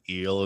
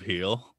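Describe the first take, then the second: First: The word begins directly with the vowel sound. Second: The word begins with an h sound. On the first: "he says eel instead of heel" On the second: "instead of heel"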